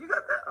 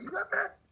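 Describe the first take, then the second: First: Very high, loud squeaky question; shrill excited squeak. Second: Very high squeaky question; excited squeak. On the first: Hensley echoing the question back, very high and loud. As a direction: squeal it in disbelief. Even higher louder repeat. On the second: Narrator asking Hensley again, squeaky high. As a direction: squeak it out in disbelief. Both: Retold or imitated.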